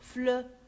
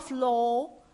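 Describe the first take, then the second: First: The vowel is a rounded eu sound. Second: The vowel is an o sound. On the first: The speaker calls it right. "on prononce E" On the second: The speaker calls it wrong. "Pas flow, flow comme la lettre O"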